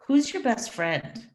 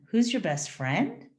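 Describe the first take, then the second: First: "Who's your best friend?" falling at the end, stress on "Who's"; teacher asks a plain who question, falling. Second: "Who's your best friend?" rising on "friend"; teacher hints at the answer "me", rising; rising who question. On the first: Teacher models a who question, falling. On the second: Teacher coaxes students to answer "me", rising on "friend". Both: Shown as a demonstration. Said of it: "is very different than".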